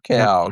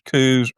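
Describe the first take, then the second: First: The vowel is an 'ow' sound. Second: The vowel is an 'oo' sound. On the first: "they're either pronounced as coos or cows" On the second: "they're either pronounced as coos or cows"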